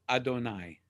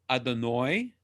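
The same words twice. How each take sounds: First: It uses the Sephardic Hebrew pronunciation. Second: It uses the Ashkenazi Hebrew pronunciation.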